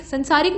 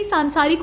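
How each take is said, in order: First: संसारिक with short first a; wrong form. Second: सांसारिक with long first aa; correct form. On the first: Teacher showing the mistake, संसारिक with short first vowel. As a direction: say संसारिक as "sansaarik". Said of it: "नहीं सांसारिक होता है". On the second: Teacher correcting it, सांसारिक with long first vowel. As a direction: say सांसारिक as "saansaarik". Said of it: "सांसारिक होता है". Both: Shown as a demonstration.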